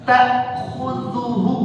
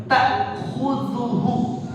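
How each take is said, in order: The two takes are said the same way.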